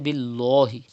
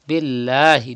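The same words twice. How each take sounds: First: The L sound is heavy and thick. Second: The L sound is light and thin. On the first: The speaker calls it wrong. "do not say" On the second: The speaker calls it right. "You have to read lam with thin voice"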